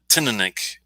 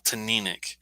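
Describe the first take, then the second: First: The stress is not on the second syllable. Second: The stress is on the second syllable. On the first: The speaker calls it wrong. "I think I said Taninic. I was close" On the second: The speaker calls it right. "the emphasis on that second syllable"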